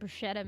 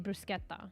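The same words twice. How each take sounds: First: The middle consonant is a 'sh' sound. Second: The middle consonant is a 'k' sound. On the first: This is how it was assumed to be said. The speaker calls it wrong. "it has like what is it? S C H in it. I thought it was like" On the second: This is probably the more authentic way. The speaker calls it right. "more like probably bruschetta"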